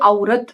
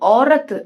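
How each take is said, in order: First: The first vowel glides like 'ow'. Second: The first vowel is a plain 'oh'. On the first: The speaker calls it wrong. "அவுரத் அப்படின்னு use பண்ணுவாங்க" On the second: The speaker calls it right. "ஓரத்து அவ்வளவுதான் சொல்லணும். அவ்வு சொல்லக்கூடாது"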